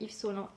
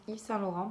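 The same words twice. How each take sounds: First: "Yves Saint-Laurent" slurred as "iv solɑ", the Saint swallowed; mispronounced name. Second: "Yves Saint-Laurent" said clearly as "iv sɛ̃ lɔʀɑ̃"; corrected name. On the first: Vlogger naming a brand, garbled first try. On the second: Vlogger correcting the brand name, careful and clear. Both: Real, not acted.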